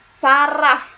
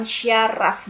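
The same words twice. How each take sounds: First: Saraf with a plain s, sa-raf; standard saraf. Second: Syaraf said slowly with sh, shya-raf; wrong form syaraf. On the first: Teacher models the correct word, plain s. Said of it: "bukan syaraf". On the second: Teacher shows the wrong form slowly with sh. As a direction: stretch syaraf out with a sh sound at the start. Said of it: "nggak pakai Y". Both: Shown as a demonstration.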